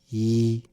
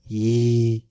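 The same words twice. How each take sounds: First: The vowel is short, a single vowel. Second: The vowel is long, a double vowel.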